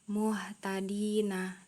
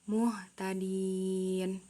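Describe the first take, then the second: First: The word ends with a final vowel sound. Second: The word ends on a consonant, vowel dropped. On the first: The reading continues without stopping. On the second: The reader stops at this word.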